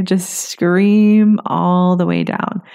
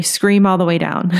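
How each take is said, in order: First: Just scream all the way down, drawn out slowly with weight on "scream"; slow, emphatic repeat. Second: Said in the usual way. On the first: Shown as a demonstration. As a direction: stretch "scream" slowly to drive the point home.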